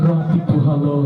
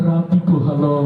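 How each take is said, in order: The two takes are said the same way.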